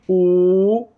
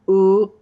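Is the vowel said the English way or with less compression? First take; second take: less compression; English way. First: The vowel is shaped to lessen vocal compression. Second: The vowel is said the usual English way. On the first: The speaker calls it right. "It has to be ooh" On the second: The speaker calls it wrong. "it can't be ooh, ooh, because that's going to encourage the squeeze"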